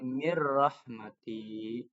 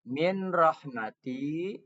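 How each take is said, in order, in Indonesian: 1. Bunyi n menyatu dengan bunyi r berikutnya. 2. Bunyi n diucapkan sebelum kata berikutnya.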